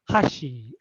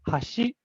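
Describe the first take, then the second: First: Its pitch accent gives the meaning chopsticks. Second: Its pitch accent gives the meaning bridge. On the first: The word means chopsticks. "hashi and chopsticks" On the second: The word means bridge. "hashi for bridge"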